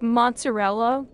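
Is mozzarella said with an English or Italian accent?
English. The word is said with a plain English accent. The speaker calls it wrong. "I can't just say it like mozzarella"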